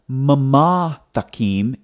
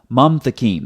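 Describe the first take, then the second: First: A vowel is said between the two m sounds. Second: No vowel is said between m and t. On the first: The speaker calls it wrong. "it's not mama takim" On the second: The speaker calls it right. "it's mam takim"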